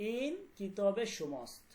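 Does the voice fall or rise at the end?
falls. The voice falls at the end. It is a plain statement. "সাধারণ একটা, এটা তোমার কিতাব, এটা কোনো প্রশ্নবোধক না।"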